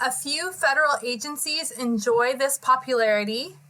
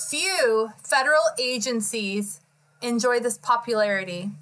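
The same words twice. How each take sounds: First: Said in the usual way. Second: Careful restart, leaning on "few"; stress on few. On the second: Real, not acted. Reader correcting a misquoted joke, deliberately stressing "few". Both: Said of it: "or, I mean, sorry".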